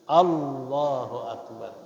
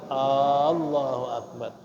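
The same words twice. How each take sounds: First: The opening vowel of Allahu is kept short. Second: The opening vowel of Allahu is drawn out long. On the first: It stays a statement. The speaker calls it right. "Jangan dipanjangin, tapi" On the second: It turns into a question. The speaker calls it wrong. "Jangan dipanjangkan lafaz hamzah pada Allah. Seperti dia ucap"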